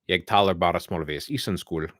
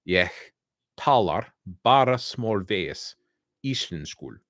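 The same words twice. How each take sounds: First: It is spoken quickly, without the rolled sounds. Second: It is spoken slowly, each sound clearly articulated. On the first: It is hard to understand. The speaker calls it wrong. "if I say it real quick" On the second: It is easier to understand. The speaker calls it right. "when I slow it down and really enunciate"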